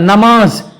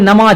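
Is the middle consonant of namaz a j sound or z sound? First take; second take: z sound; j sound. First: The word is said with a z sound. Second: The word is said with a j sound. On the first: The speaker calls it right. "जा से नमाज होता है" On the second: The speaker calls it wrong. "नमाज में जीम नहीं होगा"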